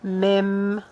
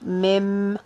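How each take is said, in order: First: The word ends with an m sound. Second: The same.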